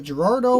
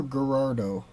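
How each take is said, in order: First: Gerardo starting with a soft J sound; first sound of Gerardo like the J in "jar"; soft G pronunciation. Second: Gerardo starting with a hard G; first sound of Gerardo like the G in "go"; hard G pronunciation. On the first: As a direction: say Gerardo as "juh-RAR-doh". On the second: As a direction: say Gerardo as "guh-RAR-doh". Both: Shown as a demonstration. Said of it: "Is that Gerardo or Gerardo?".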